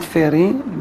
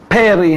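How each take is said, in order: First: The word begins with an f sound. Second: The word begins with a p sound. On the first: The speaker calls it wrong. "not feri. The Yemenite says feri" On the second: The speaker calls it right. "we have to say Borei peri"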